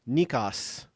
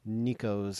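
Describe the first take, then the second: First: The name is said with a Greek pronunciation. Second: The name is said with an American pronunciation. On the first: The speaker calls it right. "you have a Greek pronunciation" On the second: The speaker calls it wrong. "like more of an American accent"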